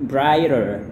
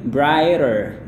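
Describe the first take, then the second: Both takes have the same delivery.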